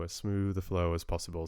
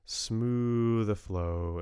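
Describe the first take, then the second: First: Said in the usual way. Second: Smooth stretched slow and lifted, savouring the word; drawn-out smooth. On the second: Real, not acted. Streamer to chat, savouring the word smooth slowly. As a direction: lean on smooth and let it glide out slowly.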